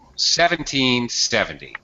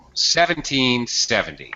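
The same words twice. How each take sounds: First: Strong and weak stresses alternate evenly throughout. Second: Strong and weak stresses alternate evenly throughout.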